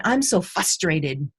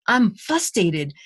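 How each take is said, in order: First: Said in the usual way. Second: Fustated said without the first r, slowly; mispronounced frustrated. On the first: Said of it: "one of my students who said". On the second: Retold or imitated. Student mispronouncing fustated, slow. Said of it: "the word you're trying to say is frustrated".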